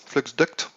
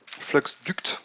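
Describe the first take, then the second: First: "flux duct" said again with a rise, a different attempt at the English; second English try. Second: "Flux duct" breathed out, testing the English sounds; trying English pronunciation. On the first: Streamer tries the item name again, questioning rise. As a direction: try "flux duct" once more, lifting at the end. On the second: Streamer tests how to say the item name, half-whispered. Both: Shown as a demonstration. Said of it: "j'ai un accent anglais moisi".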